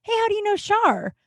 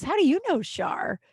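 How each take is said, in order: First: High-pitched casual query with SHAR falling; neighbor's curious question. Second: YOU punched high, then falling on Shar; question thrown back. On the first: Neighbor questioning the buddy about Shar, high and curious. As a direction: ask "how do you know Shar" high and evenly. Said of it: "he looks at my buddy and he goes". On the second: Buddy asking the neighbor back, puzzled stress on YOU. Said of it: "My buddy goes". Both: Retold or imitated.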